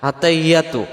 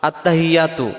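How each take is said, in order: Both takes have the same delivery.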